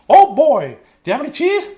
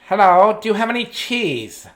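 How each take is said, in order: First: It is said in a famous mouse's voice. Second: It is said in a funny mouse voice.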